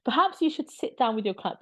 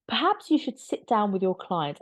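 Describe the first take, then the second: First: High, sing-song condescension; patronizing. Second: Condescending lawyerly reply; patronizing. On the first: Mocking the lawyer's reply, high sing-song condescension. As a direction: talk down sweetly, like to a child. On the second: Backgrid lawyer talking down to the royals' lawyers, patronizing. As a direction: talk down to the other lawyer. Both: Retold or imitated. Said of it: "it's so patronizing".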